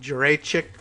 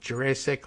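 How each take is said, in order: First: The c sounds are said the Slavic way. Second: The c sounds like a plain English s. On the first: "Is there any of those hard Slavic C's in there?" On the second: "Is it like Jurassic"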